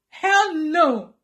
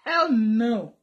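First: Raised, forceful refusal; emphatic denial. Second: Low-key, firm refusal; firm denial. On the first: Vlogger insisting she does not miss her ex, raised and emphatic. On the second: Vlogger denying she misses her ex, firm and contained. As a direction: refuse firmly without raising the voice. Denies missing David, first take. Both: Real, not acted.

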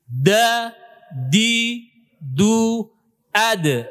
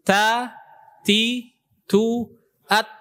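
First: "Da, di, du, ad" with the tongue tip pressed firmly and released voiced; strong dal. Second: "Ta, ti, tu, at" with a light, airy t; touch each t gently, syllable by syllable; soft ta. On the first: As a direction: punch each d hard, syllable by syllable. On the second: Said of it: "huruf ta itu lembut". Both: Shown as a demonstration.

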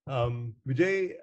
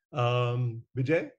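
Both takes have the same delivery.

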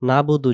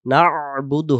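First: "নাবুদু" as plain quick nabudu; wrong, no ain. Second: "নাবুদু" slow, throaty ain after না; correct ain. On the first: Teacher warning against the mistake, "নাবুদু" without ain. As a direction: leave out the throat sound in "নাবুদু". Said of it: "যেন না হয়". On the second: Teacher giving the correction, "নাবুদু" with drawn-out ain. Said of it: "হবে". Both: Shown as a demonstration.

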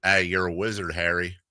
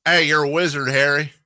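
First: Put-on low-key, failed country accent; softer, half-hearted stab at country; bad country accent. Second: Higher-pitched, hammed-up country twang; badly faked country accent, pushed higher; attempted country accent. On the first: Radio host tries a Harry Potter line, weak country accent. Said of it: "that's not a good country accent". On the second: Radio host retries the wizard line, exaggerated country accent. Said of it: "I'm not good at country accents".

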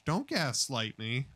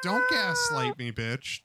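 First: Said in the usual way. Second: High yelled protest; outraged yell. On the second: Real, not acted. Yelling at the cat not to gaslight him, outraged yell.

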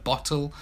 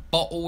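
First: "bottle" with a clear, fully pronounced T; received pronunciation. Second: "bottle" with the T swallowed into a glottal stop; estuary English glottal stop. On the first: Teacher contrasting his lesson accent, crisp T in "bottle". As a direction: say "bottle" carefully with the T sounded. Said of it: "instead of bottle". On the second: Teacher demonstrating his pub accent, glottal stop "bottle". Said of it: "dropping your T's". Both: Shown as a demonstration.

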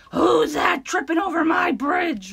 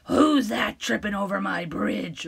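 First: Higher, loud shouted roar; roaring troll. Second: Troll roar. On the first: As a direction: roar it at the intruder. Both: Acted. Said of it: "roared the troll".

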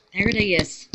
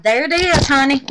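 First: Said in the usual way. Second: High, loud delighted reveal; there it is, honey, sung out in delight; thrilled. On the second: Real, not acted. Showing viewers her soap, thrilled.

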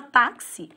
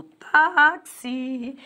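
First: Said in the usual way. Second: "táxi" very slowly stretched, TÁ held long; exaggerated slow syllable demo of "táxi"; stress on TÁ. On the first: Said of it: "a sílaba tônica é o tá". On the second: Shown as a demonstration. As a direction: draw out both syllables of "táxi", leading with a long TÁ. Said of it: "A sílaba tônica é o tá".

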